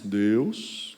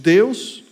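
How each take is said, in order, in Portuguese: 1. É dita com voz alterada, fingida. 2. É dita com voz simples e comum.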